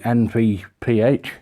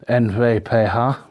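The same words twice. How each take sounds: First: The letters are said with English letter names. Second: The letters are said with Dutch letter names.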